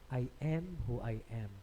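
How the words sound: The 'a' in 'am' has an American flat vowel.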